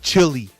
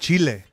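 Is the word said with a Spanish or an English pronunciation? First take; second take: English; Spanish. First: The word is said with a plain English pronunciation. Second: The word is said with a Spanish-style pronunciation. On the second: "I say it with like that with that accent"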